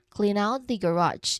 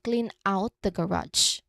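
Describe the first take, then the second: First: The N of clean runs straight into out. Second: Clean and out are said as separate words. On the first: The speaker calls it right. "So it sounds like clean out" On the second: The speaker calls it wrong. "Instead of saying it separately"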